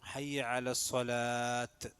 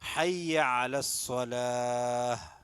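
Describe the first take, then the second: First: The last word ends with a t sound. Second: The last word ends with an h sound. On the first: The speaker calls it wrong. "ആളുകൾ തെറ്റിക്കുന്നതാണ്... തെറ്റാണ്" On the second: The speaker calls it right. "അവിടെ ഹാ ഉണ്ട് ഉച്ചാരണം പറ്റും"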